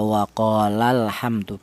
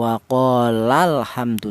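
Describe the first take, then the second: First: The lam syllable is read plainly without extra emphasis. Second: The lam syllable is pressed with higher, stronger voice. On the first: One person is speaking. "dibaca biasa saja" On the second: Two people are speaking. "ditekan pada lafal huruf lamnya"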